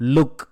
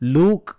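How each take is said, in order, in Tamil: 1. உயிரெழுத்து குறுகியது, சட்டென்று நிறுத்தப்படுகிறது. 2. உயிரெழுத்து நீட்டி நீளமாக ஒலிக்கப்படுகிறது. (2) "லூக் அப்படின்னு படிக்கக்கூடாது"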